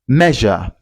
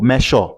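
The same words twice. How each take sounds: First: The middle consonant is a voiced zh sound. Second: The middle consonant is not a zh sound. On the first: The speaker calls it right. "You can also hear it in this word measure" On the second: The speaker calls it wrong. "not mayor or measure"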